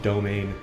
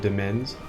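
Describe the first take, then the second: First: The word ends with an n sound. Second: The word ends with an s sound. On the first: The speaker calls it right. "this is domain. That's how you say that" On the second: The speaker calls it wrong. "I was always calling it like the Domensny or the Domens"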